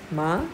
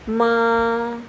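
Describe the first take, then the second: First: The pitch rises from mid to high. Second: The pitch stays high and level. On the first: "Lalu nada duanya" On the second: "nada satu"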